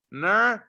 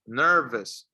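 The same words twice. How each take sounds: First: "Nervous" broken up as ner-v-vous; exaggerated V. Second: Said in the usual way. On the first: Shown as a demonstration. Teacher shows teeth to lip for V, exaggerated pronunciation. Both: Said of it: "Remember to pronounce the letter V".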